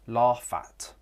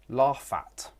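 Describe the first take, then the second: No difference in how they are said.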